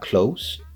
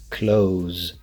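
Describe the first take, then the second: First: The word ends with an s sound. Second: The word ends with a z sound. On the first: The speaker calls it wrong. "not the S sound. So it's not close" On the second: The speaker calls it right. "pronouncing the Z sound"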